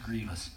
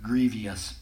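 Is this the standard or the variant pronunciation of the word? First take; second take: standard; variant. First: The word is said in its standard pronunciation. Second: The word is said in a variant pronunciation. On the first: "It's pronounced grievous" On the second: "Sometimes people pronounce it grievous"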